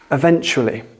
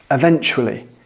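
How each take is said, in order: First: The stress is on the second syllable. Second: The stress is on the second syllable.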